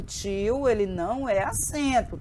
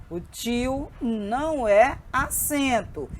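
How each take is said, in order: First: Said in the usual way. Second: "O tio não é acento" slowly, each word weighted; emphatic restatement. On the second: Shown as a demonstration. Teacher correcting a misconception for the class, emphatic restatement.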